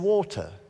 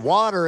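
First: The word is said in a British accent. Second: The word is said in an American accent. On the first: The speaker calls it right. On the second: The speaker calls it wrong.

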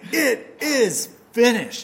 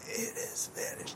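First: It is said loudly, as a declaration. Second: It is said quietly and weakly.

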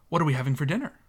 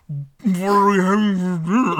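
First: It is spoken clearly, without a full mouth. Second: It is spoken muffled, as if with a full mouth.

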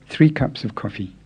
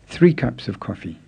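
No difference in how they are said.

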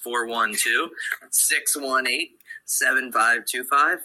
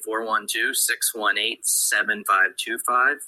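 First: The number is said more slowly. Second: The number is said fast.

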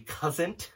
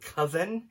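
First: The word has a Pittsburgh-style pronunciation. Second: The word has a standard pronunciation. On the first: This is how the speaker's family says it. "I say cousin ... because my parents came from Pittsburgh" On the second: This is how others usually say it. "instead of cousin"

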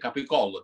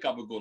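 First: The word has a full standard Italian pronunciation. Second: The word has a clipped American-Italian slang pronunciation. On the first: "That's the way I pronounce it Italian" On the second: "I don't say gabagool"

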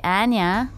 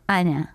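First: The name is said with a Canadian pronunciation. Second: The name is said with a Russian pronunciation. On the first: "people in Canada say Anya" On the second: "Russians say Anya"

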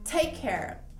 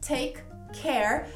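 First: The two k sounds merge into one. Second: Both k sounds are said separately and slowly. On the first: "Agora falando com mais naturalidade, você não tem esse segundo k do take" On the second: "Falando pausadamente"

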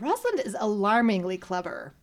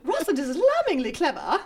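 First: It is said in the speaker's ordinary accent. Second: It is said in a put-on English accent. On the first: The speaker calls it wrong. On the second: The speaker calls it right.

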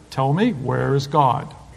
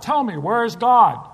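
First: The voice is only slightly raised. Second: The voice is very loud, nearly a yell.

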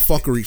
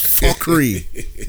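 First: It is said in a plain American accent. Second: It is said in a put-on West Indian accent. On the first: "Not fuckery" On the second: "You hear my fake West Indian voice"

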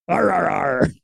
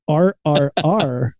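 First: It is said as a growling pirate roar. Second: It is said in a plain, ordinary voice. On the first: The speaker calls it right. "the pirate version" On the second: The speaker calls it wrong. "it just RRR doesn't sound as good as the pirate version"

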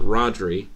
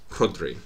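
First: The first R is plain without extra air. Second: The first R is breathy with extra air. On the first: The speaker calls it wrong. "It's not Rodri" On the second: The speaker calls it right. "it's Rodri"

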